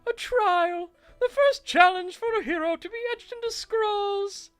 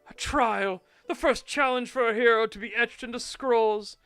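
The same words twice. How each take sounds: First: It is read in a put-on character voice. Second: It is read in the speaker's normal voice.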